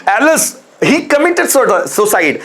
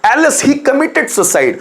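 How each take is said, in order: First: Drawn-out grieving alas, slow; slow sorrowful alas. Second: Slow mournful cry, pitched higher; higher slow sorrowful alas. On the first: Teacher demonstrating grief to students, slow sorrowful exclamation. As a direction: sigh out the alas slowly. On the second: Teacher repeating grief example, higher slow mournful cry. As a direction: wail the alas slowly. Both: Shown as a demonstration. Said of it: "LS word दुख को प्रदर्शित".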